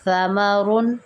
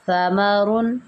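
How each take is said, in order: Both takes have the same delivery.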